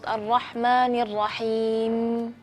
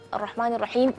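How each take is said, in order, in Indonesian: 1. Huruf mim terakhir dibaca sedikit lebih panjang. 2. Huruf mim terakhir dipotong tiba-tiba. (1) "kita kasih sedikit sifat tawasud" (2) "berhenti di situ. Tidak, itu tidak boleh"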